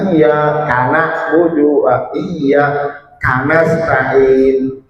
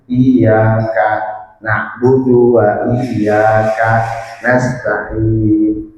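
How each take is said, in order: First: Iyyaka runs straight into the next word. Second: There is a short break after iyyaka. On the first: The speaker calls it wrong. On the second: The speaker calls it right. "ya agak berhenti"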